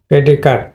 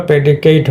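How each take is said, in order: First: পেডিকাট ending in a weak "kut"; schwa pronunciation. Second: প্রেডিকেট ending in a full "kate"; verb pronunciation. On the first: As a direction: say পেডিকাট as PRE-di-kət. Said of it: "এটা হলো তোমার শোয়া sound". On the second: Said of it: "verb হলে হয় হলো প্রেডিকেট হতো". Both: Shown as a demonstration.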